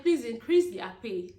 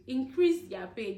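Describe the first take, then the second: First: Louder appeal to the government; loud plea. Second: "Increase" stressed, each word slowed; slow repeat. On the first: Vlogger begging the government to raise nurses' pay, loud plea. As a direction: call out firmly, pleading. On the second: Vlogger repeating her demand for nurses' pay, slow and deliberate. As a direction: spell the plea out slowly. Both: Real, not acted.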